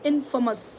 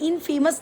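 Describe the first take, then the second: First: It does not sound like 'famous' with 'in' added. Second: It sounds like 'famous' with 'in' added. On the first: The speaker calls it right. "It's इनफेमस" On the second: The speaker calls it wrong. "उनको लगता है फेमस का opposite इनफेमस, लेकिन इनफेमस नहीं"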